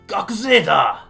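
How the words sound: It sounds tough and cocky, like a gangster.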